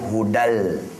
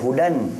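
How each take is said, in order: First: The n is merged into a following l sound. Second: The word ends with a clear n sound. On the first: The speaker calls it right. "Dia hudal" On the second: The speaker calls it wrong. "Dia tak sebut hudan D A N, bukan"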